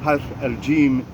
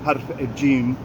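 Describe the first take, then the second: No difference in how they are said.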